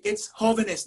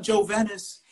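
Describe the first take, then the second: First: "jóvenes" with an h sound, HO-ve-nes; correct Spanish pronunciation. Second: "Jovenes" with an English j, jo-VEN-es; mispronounced Spanish. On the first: Student correcting the professor, "jóvenes" said in proper Spanish. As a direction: say "jóvenes" as a native Spanish speaker. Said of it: "not Jovenes". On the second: Student echoing the professor's mistake, anglicised "Jovenes". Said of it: "it's jóvenes, not Jovenes". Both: Retold or imitated.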